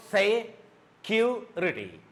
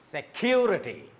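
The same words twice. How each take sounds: First: Security slowly split into se, cu, rity; security in separate beats with pauses; syllable by syllable. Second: Security joined up, CU punched, falling after; stress on CU. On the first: Teacher breaking security into three syllables, syllable by syllable. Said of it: "it has got three syllables". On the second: Teacher saying the whole word, stress on CU. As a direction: hit the CU in security, then drop. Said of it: "a raise of your voice". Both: Shown as a demonstration.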